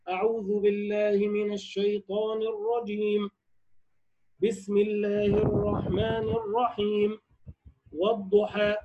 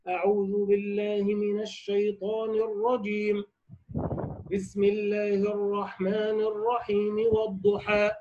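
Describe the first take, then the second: First: Pauses come after both opening phrases. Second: A pause comes after the first phrase only. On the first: "قطع الجميع" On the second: "قطع الأول وهو الاستعاذة، ووصل الثاني وهو البسملة بأول السورة"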